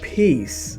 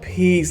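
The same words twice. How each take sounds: First: The word is said softly and calmly. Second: The word is said curtly and dismissively. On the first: It wishes calm and tranquility. "not peace like peace" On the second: It tells someone to leave. "like get out"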